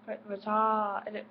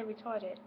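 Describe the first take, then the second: First: Slow, drawn-out British try at "retarded"; restart, then stretch "retarded" in a shaky British accent attempt. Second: Said in the usual way. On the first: Shown as a demonstration. Failing to manage the word on camera, attempted British accent. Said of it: "I can't say it in a British accent". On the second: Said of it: "but I can't say retarded".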